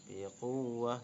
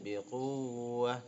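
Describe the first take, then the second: No difference in how they are said.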